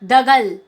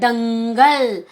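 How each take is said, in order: First: The first syllable has no nasal sound. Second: The first syllable has a nasal sound. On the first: The speaker calls it wrong. "दगल शब्द नहीं होता" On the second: The speaker calls it right. "द के ऊपर आपने अंक की बिंदी लगाई तो उच्चारण क्या हुआ"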